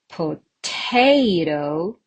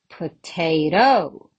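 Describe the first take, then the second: First: The stress is on the second syllable. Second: The stress is on the third syllable. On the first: The speaker calls it right. "Definitely the second one" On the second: The speaker calls it wrong. "and I can say potato"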